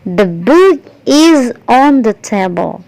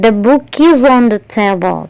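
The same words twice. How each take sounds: First: Each word is said separately, without linking. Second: The words run together with a linking z sound. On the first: "Kalau saya tidak menggunakan pelafalan atau pronunciation" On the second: "S-nya berubah menjadi E Z, kemudian digabung dengan on"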